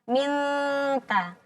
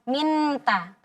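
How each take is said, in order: First: The n is a half-hidden nasal before t. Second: The n sound is pronounced fully and clearly. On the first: The speaker calls it right. "Berarti antara keduanya. ... ujung lidahnya menggantung" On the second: The speaker calls it wrong. "Kalau kita jelaskan jadi minta"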